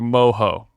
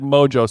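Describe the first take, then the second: First: The word is said with a Spanish pronunciation. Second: The word is said with an English pronunciation. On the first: The speaker calls it right. "but it's technically mojo" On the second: The speaker calls it wrong. "I called it mojo sauce"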